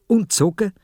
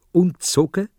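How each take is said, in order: Both takes have the same delivery.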